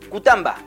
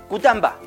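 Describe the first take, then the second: The two takes are said the same way.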